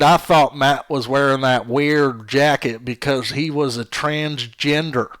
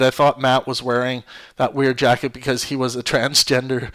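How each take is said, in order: First: It is read in a put-on foreign accent. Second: It is read in the speaker's natural accent.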